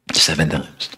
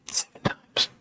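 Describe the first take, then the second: First: Said in the usual way. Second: Barely audible whisper; thinking to herself. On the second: Acted. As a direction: whisper it under the breath, as a private thought. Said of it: "she's thinking".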